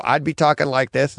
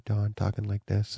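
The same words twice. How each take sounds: First: Said in the usual way. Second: Much softer, lower voice; lower audio level. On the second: Shown as a demonstration. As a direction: drop down as if badly under-recorded. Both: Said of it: "you'd have different audio levels".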